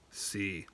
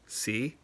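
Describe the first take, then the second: First: The pitch stays low and level. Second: The pitch rises to a high level. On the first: "low flat" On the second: "high rising"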